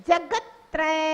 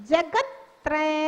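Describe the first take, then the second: Both takes have the same delivery.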